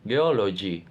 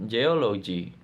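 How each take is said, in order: Both takes have the same delivery.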